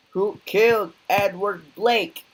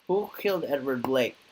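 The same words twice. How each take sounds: First: Loud, higher demand, stress on killed; demanding shout. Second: Said in the usual way. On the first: Acted. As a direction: bark it at the bar crowd. Interrogation, repeated louder.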